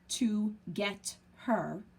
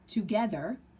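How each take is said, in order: First: The three words are said slowly and separately. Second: The three words are blended quickly into one.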